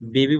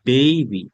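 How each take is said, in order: First: The first vowel is a plain short e. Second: The first vowel glides like ay. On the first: The speaker calls it wrong. "বেবি বলেন যে আপনারা" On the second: The speaker calls it right. "সেটা হবে বেবি"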